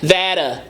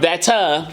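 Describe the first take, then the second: First: The middle consonant is a soft D sound. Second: The middle consonant is a clear T sound. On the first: "It's like a D instead of the T" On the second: "instead of that uh"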